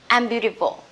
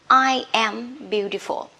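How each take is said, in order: First: I am is contracted into one syllable. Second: I am is said as two full words. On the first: "so you can say I'm beautiful" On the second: "I am, in short form, you can say am, or you can say I'm"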